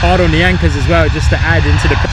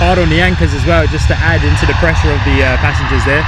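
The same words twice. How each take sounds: First: Loud, eager call of the hard landing; loud live plane-spotting call; excited commentary. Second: Loud, eager repeat of the landing call; loud live plane-spotting call; excited commentary. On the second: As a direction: call it out again just as hyped. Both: Real, not acted.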